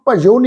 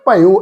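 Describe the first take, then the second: First: The middle consonant is a j sound. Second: The middle consonant is a y sound. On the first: The speaker calls it wrong. "भजो नहीं पढ़ना" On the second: The speaker calls it right. "भयो इनू उच्चारण करांगे"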